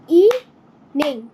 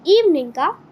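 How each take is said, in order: First: evening drawn out slowly in beats; slow syllable demo. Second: Said in the usual way. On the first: Shown as a demonstration. Teacher to pupils, slowly clapping syllables. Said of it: "teacher repeats slowly". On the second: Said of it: "teacher reads word list".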